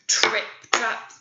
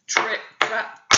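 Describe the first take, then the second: No difference in how they are said.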